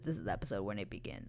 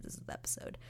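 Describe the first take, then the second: First: Said in the usual way. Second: Hushed, secretive whisper of "This is the episode.". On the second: Shown as a demonstration. Vlogger teasing viewers about the big episode, whispering.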